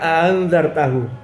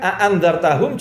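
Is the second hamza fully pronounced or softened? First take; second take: softened; fully pronounced. First: The second glottal stop is softened. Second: The second glottal stop is fully pronounced. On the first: This is how another tribe reads it. "biasa mentashilkan Hamzah" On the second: This is how one tribe reads it. "biasa mentahkikkan Hamzah"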